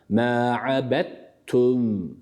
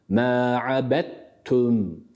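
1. Dal harfi t sesine karışır. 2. Dal harfi t sesine karışır.

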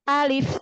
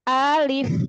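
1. Kata alif dibaca pendek dan langsung. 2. Kata alif dibaca panjang dengan nada diayun. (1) "tapi langsung sebutkan alif" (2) "maka jangan alif"

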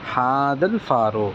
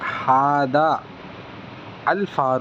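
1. hadha வும் al உம் சேர்ந்து ஒரே சொல்லாகும், hadhal. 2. hadha வும் al உம் தனித்தனியாக சொல்லப்படும், உயிர் இருக்கும். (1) "சேர்த்து நம்ம அழுத்தி என்ன செய்யணும், சொல்லணும்" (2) "ஹாதா அல் ஃபாரூ அப்படின்னு வாசிக்கூடாது"

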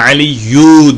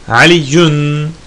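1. Kelime kısa -u ile bitiyor, n yok. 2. Kelime -un ile bitiyor, n'li. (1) "Burada Aliyu diyorum tek ötreyle" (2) "ya'dan sonra gelmiyorsa çift ötreyle yazılır"

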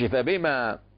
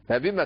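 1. الحركة بعد الميم ممدودة وطويلة. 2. الحركة بعد الميم قصيرة.

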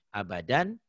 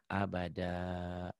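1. Kata ini berakhir dengan bunyi sengau 'an'. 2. Kata ini berakhir dengan 'a' panjang yang terbuka. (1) "Ini tulisannya" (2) "jika dihentikan dibacanya abada"

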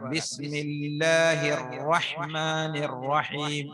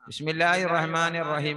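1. ഇരട്ടിച്ച അക്ഷരങ്ങൾ നീട്ടിയും ഉറപ്പോടെയും ആണ് ഓതുന്നത്. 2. ഇരട്ടിച്ച അക്ഷരങ്ങൾ ചെറുതായും ലഘുവായും ആണ് ഓതുന്നത്. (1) "ഇങ്ങനെ ശബ്ദുകൾ സൂക്ഷിച്ചു ഓതണം" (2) "പോരാ"

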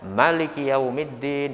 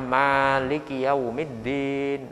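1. Vokal pertama 'ma' dibaca pendek. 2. Vokal pertama 'ma' dibaca panjang. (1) "ma-nya dibaca pendek, disebut wajah hadf" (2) "ma-nya dibaca satu alif. Ini disebut wajah isbat"

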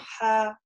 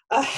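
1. В горловом звуке только слабое, мягкое трение. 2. Горловой звук сильно сужен и резкий. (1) "А говорим ха, ха, да, то есть немножко там идет такое трение" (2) "мы не говорим ха, например, ах, ах, да, то есть такой звук уже будет, ну, неестественный"

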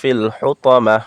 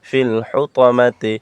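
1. শেষে স্বরধ্বনি নেই। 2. শেষে স্বরধ্বনি আছে।

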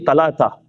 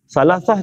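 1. Konsonannya keras, bunyi t. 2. Konsonannya lembut, seperti bunyi s.

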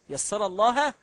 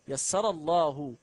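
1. ينتهي 'Allah' بدون حركة u. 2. ينتهي 'Allah' بحركة u. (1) "يسر الله خطأ" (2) "إذا أضع هنا ضم يسر الله"

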